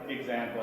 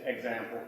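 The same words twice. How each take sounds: First: The middle consonant sounds like a voiced g. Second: The middle consonant sounds like a voiceless s. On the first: "I don't say example" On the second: "I would say it's really an S"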